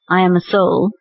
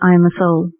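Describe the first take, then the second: First: It is said with deep, sincere feeling. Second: It is said flatly, without any feeling. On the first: The speaker truly experiences what is said. The speaker calls it right. "with realization" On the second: The words are said without being felt. The speaker calls it wrong. "just like that"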